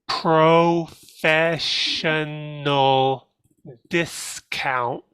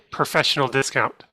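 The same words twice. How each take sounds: First: Every sound is clearly and fully enunciated. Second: Sounds are run together in quick, relaxed speech.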